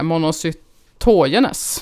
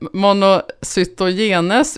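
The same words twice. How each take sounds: First: The stress is on the middle syllables. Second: The stress is not on the middle syllables. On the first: This is how experts say it. "Med lite betoning där i mitten" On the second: This is the casual everyday way of saying it. "monocytogenes brukar jag ofta säga"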